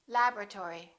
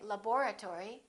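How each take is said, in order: First: The vowel after lab- is dropped entirely. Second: The vowel after lab- is pronounced as a syllable. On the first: The speaker calls it right. "one syllable, which is not pronounced" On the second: The speaker calls it wrong. "Don't say laboratory"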